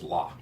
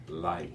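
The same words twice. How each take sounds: First: "la" with no I sound; tempting short form. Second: "lai" ending in a slight I glide; slight I sound. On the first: Teacher showing what students are tempted to say, demonstrating. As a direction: stop "la" on a plain open "ah". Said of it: "You're tempted to pronounce it as just". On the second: Teacher showing the correct form, pronouncing it deliberately. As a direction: let "lai" close on a faint "ee". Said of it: "notice the very slight I sound". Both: Shown as a demonstration.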